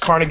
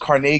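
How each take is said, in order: First: Carnegie is said the everyday New York way. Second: Carnegie is said the unusual NPR way. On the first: The speaker calls it right. "I grew up in New York ... "That's Carnegie Hall."" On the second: The speaker calls it wrong. "the N P R and it's Carnegie? ... that's not how you pronounce that"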